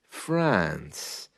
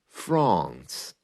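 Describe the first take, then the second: First: It is said in a regional UK accent. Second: It is said in a Received Pronunciation accent. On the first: "in other parts of the U K" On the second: "in received pronunciation"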